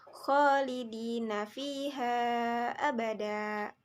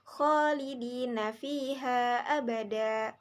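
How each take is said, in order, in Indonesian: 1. Vokal panjang ditahan selama lima harakat. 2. Vokal panjang ditahan selama dua harakat. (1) "lima harakat" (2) "boleh dibaca menjadi dua harakat"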